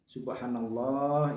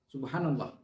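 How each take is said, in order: First: It is said slowly. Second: It is said fast.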